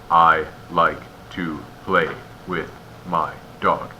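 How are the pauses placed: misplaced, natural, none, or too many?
too many. It is broken up by very many pauses. "You also don't want too many pauses"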